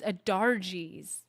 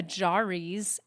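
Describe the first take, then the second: First: "Adarji's" with the R before the J; slow, careful "Adarji's"; corrected name. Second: "Ajari's" with the J before the R; slow, mistaken "Ajari's"; mispronounced name. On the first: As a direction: say "Adarji's" slowly, R sound ahead of the J. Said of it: "The R is before the J". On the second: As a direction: say "Ajari's" slowly, J sound ahead of the R. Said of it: "I'm saying her name wrong". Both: Shown as a demonstration.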